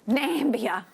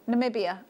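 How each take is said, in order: First: The name is said with three syllables. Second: The name is said with four syllables. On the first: The speaker calls it wrong. "I used to call it Nambia" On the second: The speaker calls it right. "Did I say that right?"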